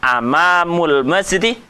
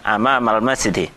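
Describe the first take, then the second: First: The first word ends with a 'u' vowel. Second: The first word ends with an 'a' vowel. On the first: The speaker calls it wrong. "Saya tidak mengatakan amamul masjidi" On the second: The speaker calls it right. "tapi saya mengatakan amamal masjidi"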